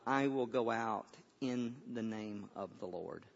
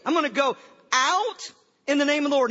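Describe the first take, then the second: First: Low, hushed quotation of David; hushed, reverent delivery; solemn quiet declaration. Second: Raised, high, punchy quote; big, projected mock declaration; emphatic restatement. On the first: Retold or imitated. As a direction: declare it softly and gravely, unhurried. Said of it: "here's what David says". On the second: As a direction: proclaim it loudly, as if puzzling over it. Repeats David's line as a puzzle.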